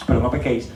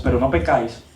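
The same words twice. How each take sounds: First: "pequéis" ending in -éis; corrected verb ending. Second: "pecáis" ending in -áis; mispronounced verb ending. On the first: Preacher correcting the Bible verse, "pequéis" with -éis. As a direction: say "pequéis" with an e before the final is. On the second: Preacher misquoting the Bible verse, "pecáis" with -áis. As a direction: say "pecáis" with an open a before the final is. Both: Real, not acted.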